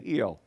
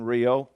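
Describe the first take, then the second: First: It starts with a soft H-like sound. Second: It starts with an English R sound.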